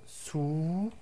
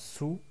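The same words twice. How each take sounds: First: The vowel after the s is long. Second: The vowel after the s is short. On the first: "Avec le prolongement de voyelle waw" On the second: "Avec dhamma, on prononce sou"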